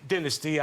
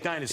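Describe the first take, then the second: First: It is said the British way. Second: It is said the American way.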